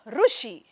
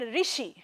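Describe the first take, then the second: First: The word begins with a 'ru' sound. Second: The word begins with a 'ri' sound. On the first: "Rishi can be uh, pronounced like Rushi" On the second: "I say the word Rishi"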